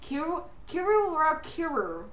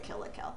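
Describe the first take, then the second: First: The title is said with Japanese-style syllables. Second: The title is said with English sounds. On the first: "I went Kiru Kiru Kiru" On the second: "if it's spelled Kill la Kill in the English words, it's I'm gonna pronounce it Kill la Kill"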